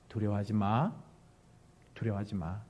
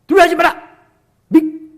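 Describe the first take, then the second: First: Low, soft, gentle reassurance; very warm. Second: Loud, high scolding shout; harsh rebuke. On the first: Preacher voicing Moses to frightened people, warm reassurance. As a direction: soothe them softly, unhurried. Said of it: "굉장히 따뜻하게". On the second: Preacher demonstrating the wrong way to comfort, scolding shout. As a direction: shout it as a stern reproach. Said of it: "이게 아니에요. 굉장히 따뜻하게". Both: Shown as a demonstration.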